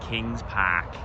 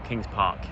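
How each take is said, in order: First: It is said in an Australian accent. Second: It is said in an English accent.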